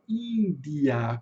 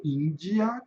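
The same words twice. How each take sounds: First: "Índia" with a plain light D, no J sound; weaker D. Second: "Índia" with D softened to a J sound; "Índia" with the Brazilian "dji"; Portuguese-style D. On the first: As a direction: say "Índia" as IN-dee-a. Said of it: "com o D mais fraquinho". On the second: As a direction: say "Índia" as EEN-jee-a. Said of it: "como a gente fala". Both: Shown as a demonstration.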